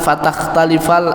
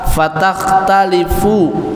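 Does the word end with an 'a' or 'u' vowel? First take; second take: a; u. First: The word ends with an 'a' vowel. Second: The word ends with an 'u' vowel.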